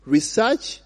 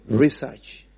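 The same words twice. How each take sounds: First: Research with the first accent's vowels; "research" ending in -serch; accent variant. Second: Research with an open -sahch ending, lower; "research" in the other accent, dropping in pitch; accent variant. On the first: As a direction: demonstrate RESEARCH as one accent has it. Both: Shown as a demonstration. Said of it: "It is just different accents".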